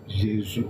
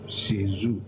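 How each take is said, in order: First: It is said with a French pronunciation. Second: It is said with a French pronunciation.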